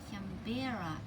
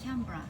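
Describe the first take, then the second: First: The middle syllable is stressed emphatically. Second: The first syllable is stressed lightly. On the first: The speaker calls it wrong. "placing the accent emphatically on the middle syllable" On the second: The speaker calls it right. "lightly on the first"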